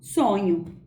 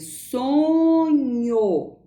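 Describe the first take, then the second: First: The word is said quickly, ending in a u sound. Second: The word is said slowly, ending in an o sound. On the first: "quando eu pronuncio a palavra um pouquinho mais rápido, ela vai apresentar o som de U" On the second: "sonho termina com O"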